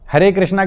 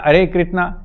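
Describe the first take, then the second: First: The first word begins with an h sound. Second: The first word begins without an h sound. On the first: The speaker calls it right. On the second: The speaker calls it wrong.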